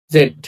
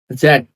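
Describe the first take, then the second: First: "জেড" with a hard Bangla j; wrong Z sound. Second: "জেড" with a buzzing English z; correct Z sound. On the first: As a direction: start "জেড" with j, no buzz. (Bangla জ দিয়ে ভুল "জেড") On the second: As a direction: start "জেড" on a z, not a j. (ইংরেজি z দিয়ে সঠিক "জেড") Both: Shown as a demonstration.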